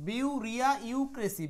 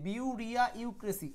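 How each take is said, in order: No difference in how they are said.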